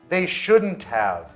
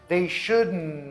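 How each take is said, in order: First: Have is said fully as its own word. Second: Have reduces to a and joins shouldn't.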